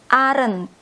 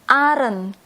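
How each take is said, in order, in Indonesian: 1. Diucapkan sebagai satu kata yang disingkat. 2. Diucapkan sebagai satu kata yang disingkat.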